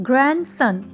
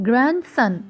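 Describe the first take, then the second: The two takes are said the same way.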